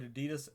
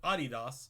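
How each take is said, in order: First: The brand name is pronounced the American way. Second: The brand name is pronounced the international way. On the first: This is how only Americans say it. "America is the only place that calls it Adidas" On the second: This is how the rest of the world says it. "Every other country in the world calls it Adidas"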